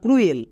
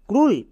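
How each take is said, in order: First: The vowel is oo followed by eh. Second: The vowel is one plain oo sound. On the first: The speaker calls it wrong. "ক্রুয়েলটা ভুল" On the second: The speaker calls it right. "এর জন্য ক্রুল উচ্চারণ হবে"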